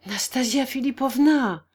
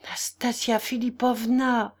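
First: Raised, urgent appeal; urgent with a touch of worry; pressing, worried. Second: Slow, mildly quavering appeal; understated tremble on the name; trembling voice. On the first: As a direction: press them with the name, anxiety showing. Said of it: "d'un ton pressant, mais où perçait l'inquiétude". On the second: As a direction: draw the name out unsteadily. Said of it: "articula d'une voix tremblante". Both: A narrator's reading.

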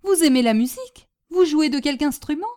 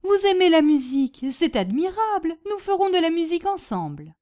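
First: Loud question, rising at the end; eager astonishment. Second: High, gushing enthusiasm; delighted exclamation. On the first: Hostess finding out her guest loves music, eagerly astonished. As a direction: ask in excited disbelief. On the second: Hostess planning to play music with her guest, delighted. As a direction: declare your joy, no longer asking. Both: Acted.

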